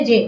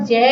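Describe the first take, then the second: First: যে with a short closed "e", as "je"; correct closed vowel. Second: যে stretched out as "jææ"; wrong open vowel. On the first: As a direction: say যে straight, without stretching. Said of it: "সরাসরি একারের মতোই উচ্চারণ করছি". (যে না টেনে, সরাসরি এ-কার) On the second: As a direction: drag যে into a long open "æ". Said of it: "আমরা টেনে বলতেছি না". (যে টেনে য্যা-র মতো) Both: Shown as a demonstration.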